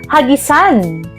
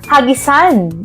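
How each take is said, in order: First: The stress is on the last syllable. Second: The same.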